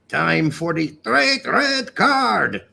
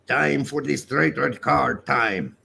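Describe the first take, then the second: First: It is yelled loudly. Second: It is read out at normal volume.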